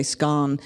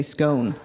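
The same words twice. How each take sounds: First: "scone" rhyming with gone; "scone" said as skon; short-o scone. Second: "scone" rhyming with bone; "scone" said as skohn; long-o scone. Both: Shown as a demonstration. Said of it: "two children who say scone".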